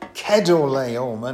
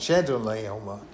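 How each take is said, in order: First: The name does not begin like 'cheddar'. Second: The name begins with a sound like 'cheddar'. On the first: The speaker calls it right. "apparently it should be pronounced Chedorlaomer" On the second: The speaker calls it wrong. "not Chedorlaomer"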